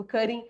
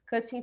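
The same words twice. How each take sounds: First: Cutting with a quick tapped T; American flap T. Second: Cutting with a sounded T; British T. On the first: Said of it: "fica mais americano". (cutting com T americano, som de R fraco) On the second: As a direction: say cutting British-style, T not tapped. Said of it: "fica mais britânico". (cutting com T britânico, bem pronunciado) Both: Shown as a demonstration.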